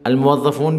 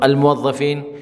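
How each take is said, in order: First: The last syllable has an oo vowel. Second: The last syllable has an ee vowel. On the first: This is the formal classical form. "अलमुव्वफ़ून भी बोल सकते हैं फ़सीहा में" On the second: This is the lighter everyday spoken form. "बोल चाल में ... ज़ेर जो है ज़्यादा हल्का"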